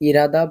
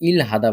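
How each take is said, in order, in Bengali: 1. h ধ্বনিটি বাদ যায় এবং শব্দাংশগুলো একসাথে মিশে যায়। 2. শব্দাংশগুলোর মাঝে h ধ্বনিটি স্পষ্টভাবে উচ্চারিত হয়। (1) "এটাকে ইরাদা বলা যায়" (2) "আবার ইল হাদা বলা যায়। আমরা এটাকে ইল হাদা বলবো"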